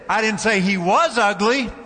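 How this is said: The stress is on the word 'was'. The person is still ugly now. "He still is ugly"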